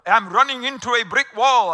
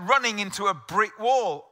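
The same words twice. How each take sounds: First: Mock Englishman abroad, loud in a vague foreign accent; over-enunciated, louder, in an unplaceable put-on accent; loud foreign-sounding accent. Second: Said in the usual way. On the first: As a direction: put on a clumsy foreign accent and say it loudly, as if to someone who doesn't understand. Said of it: "spoke louder with an accent". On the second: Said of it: "I slowed it down, spoke louder".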